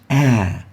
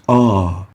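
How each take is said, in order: First: The vowel is light and thin, without depth. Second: The vowel is heavy, full and echoing. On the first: The speaker calls it wrong. "and not ah" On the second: The speaker calls it right. "but a velarized, magnified ah"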